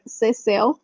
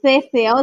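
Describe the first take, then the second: First: "ceseo" said with a clear s sound, like "seh-SEH-o"; "ceseo" with plain s sounds, the Seville way; softer "ceseo" with s, not th; right ceseo. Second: "ceseo" said with a th sound, like "theh-SEH-o"; "ceseo" lisped with th instead of s; "ceseo" with the th sound, the version it's not; wrong ceseo. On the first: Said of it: "it's like". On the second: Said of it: "it's not". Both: Shown as a demonstration.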